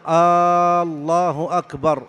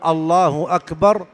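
First: The opening vowel of the first word is drawn out. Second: The opening vowel of the first word is short. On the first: It becomes a question. The speaker calls it wrong. "مد الهمزة في لفظ الجلالة" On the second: It is a plain statement. The speaker calls it right. "لم يقل الله أكبر"

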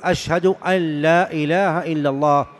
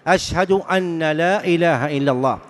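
First: The n is merged into the following l. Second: The n is pronounced separately before the l. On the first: The speaker calls it right. "والمشروع أن يقول ... مدغمة" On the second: The speaker calls it wrong. "هذا خطأ"

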